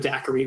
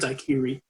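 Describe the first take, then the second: First: It uses today's usual pronunciation of the word. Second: It uses the older, original pronunciation of the word. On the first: This is how people say it now. "what we called a daiquiri" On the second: This is how people said it back then. "as you pronounce it properly then, but do not now because you'll seem silly"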